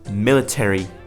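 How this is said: It is said in an American accent. "in an American accent"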